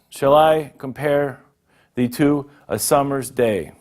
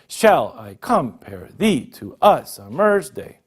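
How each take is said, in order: First: Stress falls on the normal, naturally stressed syllables. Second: Stress falls on the normally unstressed syllables instead. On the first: The speaker calls it right. "I underlined the stress words" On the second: The speaker calls it wrong. "if I were to stress the other parts, it wouldn't sound natural"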